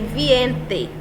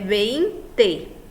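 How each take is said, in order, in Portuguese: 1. A palavra começa com o som 'vie'. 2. A palavra começa com o som 'vei'. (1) "Ao invés de dizer vinte, ele diz viente" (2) "É vinte"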